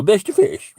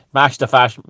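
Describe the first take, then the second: First: High, loud mock posh accent. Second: Put-on loud, blunt Dublin accent. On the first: Comedian mimicking those types, mocking posh accent. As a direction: squawk the slogan in affected posh tones. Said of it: "these types who go". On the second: Comedian trying the slogan in a working-class Dublin accent. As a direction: say it in broad Dublin, punched out. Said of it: "in a Dublin accent".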